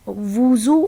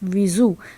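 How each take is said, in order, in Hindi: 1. पहला स्वर u की ध्वनि है। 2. पहला स्वर i की ध्वनि है। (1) "वाव के ऊपर पेश" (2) "वाव के नीचे ज़ेर"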